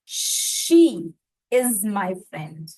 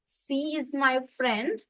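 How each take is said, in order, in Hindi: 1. पहला शब्द sh sound से शुरू होता है। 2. पहला शब्द s साउंड से शुरू होता है। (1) "अपने आप को बोलिए" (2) "श और स का इशू"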